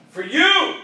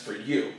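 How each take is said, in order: First: YOU punched high and loud; emphatic repeat. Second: Said in the usual way. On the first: Real, not acted. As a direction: hit YOU hard, pitch leaping up.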